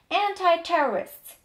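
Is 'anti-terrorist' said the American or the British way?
American. It is said in an American English accent. "To będzie American English"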